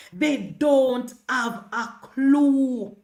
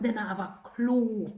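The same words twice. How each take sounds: First: Drawn out, very slow and deliberate; slow mocking repeat; slow emphatic repeat. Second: Said in the usual way. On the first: Real, not acted. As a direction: stretch every word of They don't have a clue.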